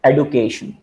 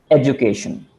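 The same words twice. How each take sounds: First: "education" with a plain d, ed-yu-kay-shun; "education" pronounced ed-u-kay-shun; variant pronunciation. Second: "education" with a j sound, ej-u-kay-shun; "education" pronounced ej-oo-kay-shun; variant pronunciation. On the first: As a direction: say "education" with a clean d sound, no j. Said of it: "like a pronunciation for". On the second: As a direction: soften the d in "education" into a j. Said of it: "Different pronunciations are prevalent". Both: Shown as a demonstration.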